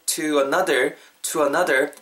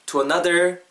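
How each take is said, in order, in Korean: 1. 강세는 to 단어에 있어요. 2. 강세는 another 단어에 있어요. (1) "전치사에는 강세 안 들어가요. to another 이렇게 하지 마시고" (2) "자연스럽게 ... 요놈의 발음 강세 넣으시고"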